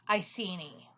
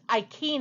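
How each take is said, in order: First: It uses the common popular English pronunciation. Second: It uses a classical Latin pronunciation. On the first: "that is the popular pronunciation" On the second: "if you're getting really technical with your Latin"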